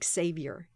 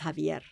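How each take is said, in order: First: The name begins with an English z sound. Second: The name begins with a Spanish j sound. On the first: The speaker calls it wrong. "his name is not Xavier" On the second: The speaker calls it right. "His name is Javier"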